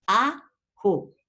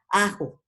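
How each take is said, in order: First: "ajo" split into a long a, then jo; separated syllables. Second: Said in the usual way. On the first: Shown as a demonstration. Teacher showing the separate A, "ajo" in two syllables. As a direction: pull "ajo" apart, holding the first vowel before jo. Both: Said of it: "la A separada".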